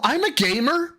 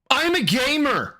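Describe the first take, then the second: First: High put-on voice; lightly voiced proud gamer; imitating Phil. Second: High put-on gamer voice; lightly voiced gamer brag; mocking voice. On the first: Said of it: "Hi, this is Phil Burnell". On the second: Mocking Phil's line.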